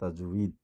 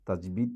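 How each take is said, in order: First: The middle consonant is a w sound. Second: The middle consonant is a b sound. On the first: The speaker calls it right. "শব্দটা তাজউইদ" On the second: The speaker calls it wrong. "তাজবিদ না"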